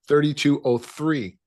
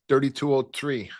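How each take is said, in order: First: It is spoken with a neutral accent. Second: It is spoken with a Chicago accent.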